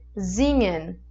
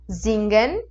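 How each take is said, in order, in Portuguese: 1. O ng é pronunciado como um único som nasal. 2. O ng é pronunciado com um g forte separado. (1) "Em alemão a gente puxa essa, esse encontro de N G para um leve encontro de N H" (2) "Em português a gente diria singen"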